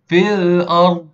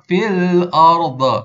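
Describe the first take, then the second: First: The final consonant is held without any bouncing echo. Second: The final consonant is released with a bouncing echo. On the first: The speaker calls it right. "kita ni sebut dengan betul dhat" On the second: The speaker calls it wrong. "bukannya ah, fil ard. Bukan, salah"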